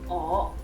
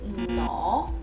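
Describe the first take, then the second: First: The word starts directly with the vowel. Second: The word starts with an ng sound. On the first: "just with the O" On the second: "with the N"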